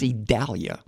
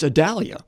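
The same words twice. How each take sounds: First: The name has a Spanish-style pronunciation. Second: The name has an English-style pronunciation.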